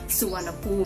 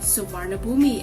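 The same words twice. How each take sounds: First: The name is said the Thai way. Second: The name is said as it is spelled. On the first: The speaker calls it right. "it is actually pronounced as" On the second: The speaker calls it wrong. "as many foreigners mistakenly pronounce it"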